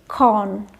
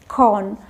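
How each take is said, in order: No difference in how they are said.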